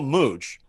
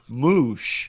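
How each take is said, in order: First: The name ends with a 'ch' sound. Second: The name ends with an 'sh' sound. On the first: "I say call Mooch" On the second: "It pronounces it Moosh because I have the e"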